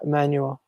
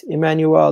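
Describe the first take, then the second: First: Emmanuel with a weak, swallowed "ul" ending; mistaken pronunciation. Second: Emmanuel with a clear "el" at the end; corrected pronunciation. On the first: Streamer quoting his own mistake, Emmanuel ending in a weak "ul". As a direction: say Emmanuel with an unstressed "-yool" at the end. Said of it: "not Emmanuel". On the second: Streamer reading a viewer's name correction, Emmanuel ending in a clear "el". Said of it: "It's just pronunciation sometimes hard". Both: Shown as a demonstration.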